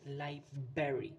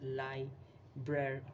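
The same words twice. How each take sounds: First: It sounds like 'liberry', missing the first R. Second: It sounds like 'library', with both R sounds. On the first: The speaker calls it wrong. "L I B E R R Y. That's how they pronounce it" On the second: The speaker calls it right. "the correct pronunciation is library"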